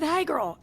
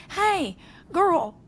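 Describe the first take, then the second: First: Put-on Hey, girl a little higher than usual; hey girl greeting. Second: Put-on high, sing-song Hey, girl; hey girl greeting. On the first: Amused friend repeating the old lady's greeting, lightly raised. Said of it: "literally said". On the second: Amused friend quoting an old lady's text, high and chirpy. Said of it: "text me and was like".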